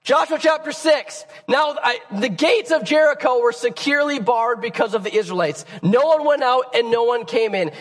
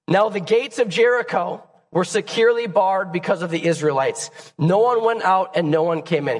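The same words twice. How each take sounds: First: Said in the usual way. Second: Hoarse, strained reading voice; raspy voice. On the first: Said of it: "deal with my raspy voice". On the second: Real, not acted. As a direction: read it through a rough throat. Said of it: "You just have to deal with my raspy voice".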